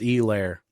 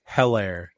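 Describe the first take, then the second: First: The name begins with a vowel, no H. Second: The name begins with a clear H sound. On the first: The speaker calls it right. "it's apparently a hard E" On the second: The speaker calls it wrong. "like a hard H sound"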